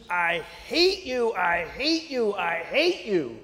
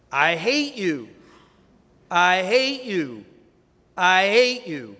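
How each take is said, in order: First: Slow, understated angry cry; a hint of a furious son yelling into the chasm; mild mock scream. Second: Slow and louder, thrown back across the chasm; booming echo. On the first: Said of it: "and he screams". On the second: Acted. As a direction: echo it back harder each time. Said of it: "a voice comes back".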